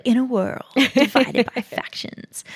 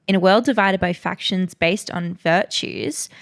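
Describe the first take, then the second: First: Higher, dramatic trailer narrator; movie trailer voice. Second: Said in the usual way. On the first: Shown as a demonstration. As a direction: announce it like an epic film trailer. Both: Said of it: "it reads like a, a movie trailer".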